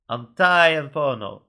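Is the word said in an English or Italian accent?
Italian. It is said in a put-on Italian accent.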